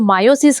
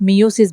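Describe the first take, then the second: First: The first syllable sounds like 'my'. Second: The first syllable sounds like 'mee'. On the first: "मायोसिस mainly उसको बोलते हैं" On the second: "जिसको आप मियोसिस भी बोलते हो"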